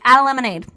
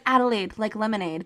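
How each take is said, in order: First: It is said quickly, the words run together. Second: It is said slowly and clearly.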